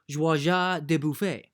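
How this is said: The name is pronounced the French way. "if I were to say it in French, I would say"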